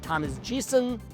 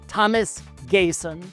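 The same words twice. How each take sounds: First: The surname begins like the letter G, 'gee'. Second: The surname is said its authentic native way. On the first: This pronunciation fits the pun. "if I pronounced it Thomas Gesson" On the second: This is the name's authentic pronunciation. "my commitment to authenticity"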